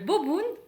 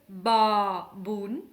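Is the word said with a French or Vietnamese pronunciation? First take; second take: French; Vietnamese. First: It is said with French sounds, without tones. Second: It is said with Vietnamese sounds and tones.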